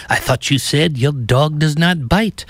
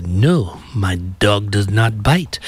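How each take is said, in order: First: Higher-pitched mock French accent; put-out French detective impression, pitched up; Inspector Clouseau. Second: Put-on slow, lightly accented movie character; measured mock-European reply, drawn-out words; hotel guest impression. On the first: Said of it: "Inspector Clouseau says". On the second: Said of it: "the customer says".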